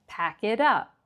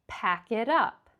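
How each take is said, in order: No difference in how they are said.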